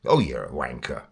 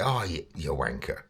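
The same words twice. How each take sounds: First: Lower, half-hearted aggressive jab; mock aggressive. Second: Soft, playful jibe; joking. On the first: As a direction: try to sound aggressive but stay mild. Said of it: "that wasn't aggressive". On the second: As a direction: tease a friend, quietly. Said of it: "it's a joke". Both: Shown as a demonstration.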